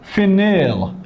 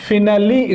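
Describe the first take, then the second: First: The word ends without a final 'ee' vowel. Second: The word ends with a clear 'ee' vowel.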